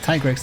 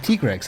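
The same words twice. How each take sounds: First: The name is pronounced in an English style. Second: The name is pronounced in a Japanese style. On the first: "Tigrex is English" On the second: "it would be Tigrex if we pronounced it in Japanese"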